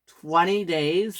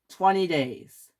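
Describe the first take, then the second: First: "Twenty days" slow, rising at the end; incredulous question. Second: Said in the usual way. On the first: Acted. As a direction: echo "Twenty days" as a drawn-out, disbelieving question. James echoes the sentence in disbelief.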